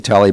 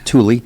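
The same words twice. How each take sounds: First: The name is said the Irish way. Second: The name is said the Italian way.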